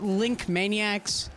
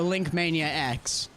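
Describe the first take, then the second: First: The name ends in one word, 'maniacs'. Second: The name ends with a separate letter X.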